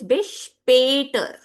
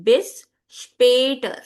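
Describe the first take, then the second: First: The stressed vowel is the umlaut sound. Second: The same.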